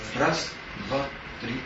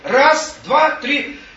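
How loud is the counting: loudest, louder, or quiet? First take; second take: quiet; loudest. First: The counting is said very quietly. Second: The counting is said loudest of all. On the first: A thought first comes faintly. "Только так, тихонечко" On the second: The thought becomes fully clear. "Еще громче"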